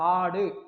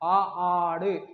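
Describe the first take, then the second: First: The first vowel has its normal length. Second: The first vowel is stretched out extra long. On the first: "அது ஆடு அப்படின்னு ஒலிக்காம" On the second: "ஆ ஆடு அப்படி நீண்டு ஒலிக்கும்"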